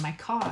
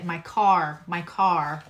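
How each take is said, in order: First: "car" with the R dropped, Long Island style; Long Island "car", no R at the end; Long Island accent. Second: "car" with a firm R on the end; pronounced final R. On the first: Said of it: "make sure I put the R". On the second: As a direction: carefully correct "car", sounding the final R. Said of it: "put the R on the end". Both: Shown as a demonstration.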